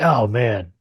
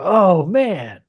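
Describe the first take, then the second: First: It is said in a displeased, disapproving way. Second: It is said in a pleased, approving way. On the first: The thing is bad. "And you're like, oh man, that's bad" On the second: The thing is good. "You go, oh man, like that's good"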